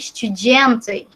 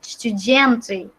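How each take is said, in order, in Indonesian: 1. Diucapkan dengan bunyi seperti J. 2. Diucapkan dengan bunyi seperti J.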